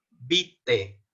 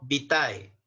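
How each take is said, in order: First: The final vowel is a plain 'e' sound. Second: The final vowel is an 'ai' diphthong. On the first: The speaker calls it right. "A, E o E vamos a pronunciar como E" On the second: The speaker calls it wrong. "no vitae"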